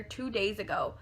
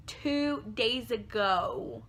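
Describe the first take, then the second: First: Said in the usual way. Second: "Two days ago" very slow, each word stretched out; emphatic repeat. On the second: Real, not acted. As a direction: draw out every word of "Two days ago" to drive it home.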